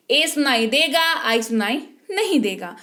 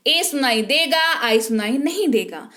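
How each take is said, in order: Both takes have the same delivery.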